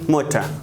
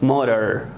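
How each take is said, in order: First: It is said with a British accent. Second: It is said with an American accent. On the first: "in British English we say motor" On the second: "in American English we say motor"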